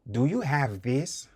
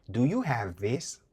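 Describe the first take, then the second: No difference in how they are said.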